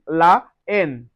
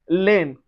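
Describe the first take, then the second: First: The article's vowel is said fully before the noun. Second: The article's vowel is dropped and joined to the noun. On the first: The speaker calls it right. "On dit la haine" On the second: The speaker calls it wrong. "So we don't say laine"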